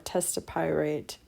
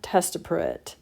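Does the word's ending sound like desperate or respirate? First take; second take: respirate; desperate. First: The word ends like the word respirate. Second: The word ends like the word desperate. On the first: "or testapirate, respirate" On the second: "you could also pronounce it similar to desperate too"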